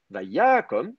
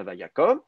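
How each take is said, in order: First: Vayakom with YA stressed, high and drawn out; va-YA-kom, accent pulled back onto YA; stress moved back. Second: Vayakom with the accent on final KOM; va-ya-KOM, leaning on the last syllable; stress on last syllable. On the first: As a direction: punch the middle syllable of Vayakom, not the last. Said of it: "je vais même faire remonter le temps". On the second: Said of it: "et non pas vayakom". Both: Shown as a demonstration.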